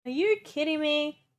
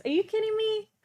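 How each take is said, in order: First: Said in the usual way. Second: Higher, stunned disbelief; can't believe the house is that big; high incredulous. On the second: Real, not acted. Streamer amazed at the furnished house, high and incredulous.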